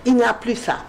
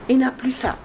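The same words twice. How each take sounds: The two takes are said the same way.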